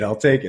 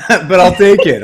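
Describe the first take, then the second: First: Said in the usual way. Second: Laughing. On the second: Real, not acted. Laughs at own groggy voice.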